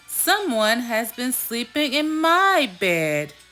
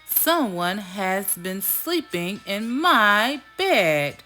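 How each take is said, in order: First: It is said in a middle-sized voice. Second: It is said in a big, deep voice.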